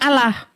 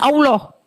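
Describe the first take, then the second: First: The vowels are pronounced as a plain 'a'. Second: The vowels are pronounced as an 'o'. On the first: The speaker calls it right. "A, L, L, A, H itu harusnya bacanya Allah" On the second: The speaker calls it wrong. "bukan Allah. Kalau Allah itu A, O, L, O, H"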